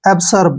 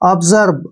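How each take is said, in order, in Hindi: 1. बीच का व्यंजन फुफकार वाली s ध्वनि है। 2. बीच का व्यंजन भनभनाने वाली z ध्वनि है। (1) "इसको पढ़ेंगे वो एब्सर्ब, एब्सर्ब जो कि गलत है" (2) "तो इसलिए हम एस को ज पढ़ेंगे"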